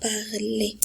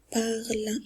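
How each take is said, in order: First: "parler" with a second syllable voiced; wrong pronunciation. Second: "parle" as one syllable, ending silent; correct pronunciation. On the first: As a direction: demonstrate the mistake, sounding the ending of "parler". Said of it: "et non pas". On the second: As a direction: model "parle" with nothing voiced after the l. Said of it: "on a dit parle et non pas". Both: Shown as a demonstration.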